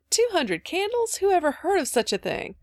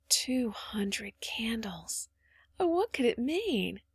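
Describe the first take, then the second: First: Scandalized disbelief. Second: Very slow, soft wondering; hushed awe. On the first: Mother hearing of all those candles, incredulous. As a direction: balk at it in high-pitched amazement. Mother exclaims at the absurd idea. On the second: Phronsie alone imagining the lit kitchen, awed. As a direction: breathe it out slowly, then lift in wonder. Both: A narrator's reading.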